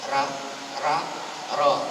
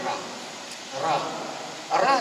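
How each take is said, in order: First: The ra is said thick and heavy. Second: The ra is said thin and light. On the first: The speaker calls it right. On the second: The speaker calls it wrong. "yang tipis dulu"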